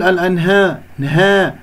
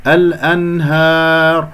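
First: الأنها with the long "aa" tilted toward "eh"; thinned alif. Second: الأنهار with an open, long "aa"; full alif. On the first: Teacher mimics a possible error, الأنها with reduced alif. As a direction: flatten the alif of نها toward "hee-eh". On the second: Teacher corrects students, الأنهار with full alif. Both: Shown as a demonstration. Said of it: "هكذا بدون تقليل صوت الألف".

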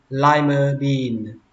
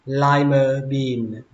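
The two takes are said the same way.

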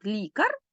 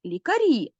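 First: "лікар" stressed on the first syllable, ЛІ; stress on the stem. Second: "лікарі" stressed on the final І, higher at the end. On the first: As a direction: hit ЛІ at the start of "лікар". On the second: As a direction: land hard on the last vowel of "лікарі". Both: Shown as a demonstration. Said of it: "Наголос перейшов на закінчення".

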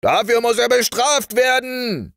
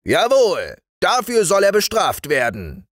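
First: High, loud rallying cry; high-pitched collective outcry; army shouting. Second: High, forceful sergeant's verdict; emphatic high-voiced military assent; fat sergeant. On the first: Acted. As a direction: shout it like a whole army demanding punishment. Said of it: "schrie die ganze Armee". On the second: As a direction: confirm it like a sergeant, pitched way up. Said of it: "sagte der dicke Wachtmeister".

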